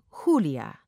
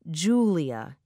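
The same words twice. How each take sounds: First: The name is said with Spanish sounds. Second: The name is said with English sounds. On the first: The family said the name this way. "instead of Julia" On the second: Outsiders said the name this way. "the neighbors who became mother's friends pronounced her name Julia"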